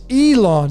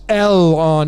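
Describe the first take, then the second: First: The syllables split after the E. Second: The syllables split after the L. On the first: The speaker calls it right. "the syllables would get broken up between the E and the L" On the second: The speaker calls it wrong. "I don't believe that it's Elon"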